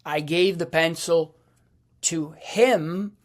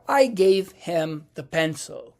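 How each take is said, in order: First: "to him" set off after a pause and leaned on; emphatic "to him" at the end; stress on to him. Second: Said in the usual way. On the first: Shown as a demonstration. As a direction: stress "to him" as the point of the sentence. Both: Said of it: "you hear the difference?".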